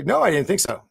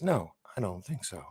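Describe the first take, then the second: First: Sharp dismissive no, raised; dismissive retort, a touch higher; snappy no. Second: Much softer, lower, deadpan denial; quiet calm denial; flat muttered no. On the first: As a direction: bite back a curt denial. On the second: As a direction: say it low and flat, no heat. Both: Retold or imitated. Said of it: "are you just saying that as".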